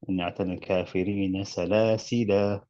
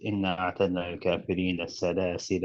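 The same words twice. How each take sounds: First: The last word ends with a lengthened vowel. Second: The last word runs on, ending short. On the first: The reading pauses at this word. "But if you can stop at it" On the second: The reading continues into the next word. "but if you link it, it's shorter"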